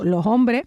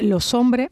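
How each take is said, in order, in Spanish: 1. La s de 'los' se vuelve una h aspirada. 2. La s se une directamente a la vocal siguiente. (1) "lo que haga es una aspiración" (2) "una especie de unión, ¿no? Eso que llamaban los franceses la liaison"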